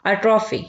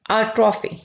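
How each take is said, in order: Both takes have the same delivery.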